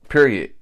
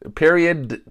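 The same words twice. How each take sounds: First: The final T is weak and barely heard. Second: The final T is strongly and clearly released. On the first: The speaker calls it wrong. "I don't think I'm saying it right" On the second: The speaker calls it right. "You got to emphasize that T"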